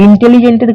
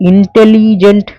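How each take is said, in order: First: Said in the usual way. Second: ইন্টেলিজেন্ট loud and drawn out in separate syllables. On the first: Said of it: "ইন্টেলিজেন্টের ক্ষেত্রে". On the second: Shown as a demonstration. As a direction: stretch ইন্টেলিজেন্ট beat by beat, ইন-টে-লি-জেন্ট. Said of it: "কয়েকটা সিলেবেলে তোমাকে ভাঙতে হয়".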